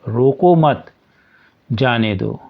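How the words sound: The pause comes after the second word.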